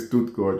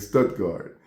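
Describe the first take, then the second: First: The name is said with a German accent. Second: The name is said with an American twang. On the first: "We don't say Stuttgart" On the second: "we put our American twang onto it. we say Stuttgart"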